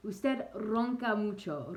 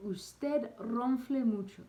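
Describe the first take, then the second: First: "ronca" with a rolled Spanish r, high, loud and slow; corrected Spanish. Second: "ronfle" said as the French word, high, loud and slow; wrong word demo. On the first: Correcting himself to viewers, slow careful Spanish "ronca". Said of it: "Roncar is to snore". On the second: Teaching snoring phrase, says "ronfle" in mistaken French, loud and slow. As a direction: blurt the French "ronfle" by mistake inside the Spanish. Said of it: "oh my gosh, that's French". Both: Shown as a demonstration.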